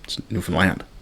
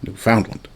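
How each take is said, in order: First: The stress is not on the middle syllable. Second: The stress is on the middle syllable 'found'. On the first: The speaker calls it right. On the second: The speaker calls it wrong. "the American pronunciation, which is Newfoundland, putting the emphasis on the found part"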